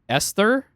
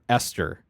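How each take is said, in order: First: The T is soft, not clearly pronounced. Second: The T is pronounced as a hard T.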